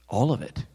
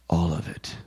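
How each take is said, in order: First: It is said in an ordinary voice. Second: It is said in a deep, calm voice.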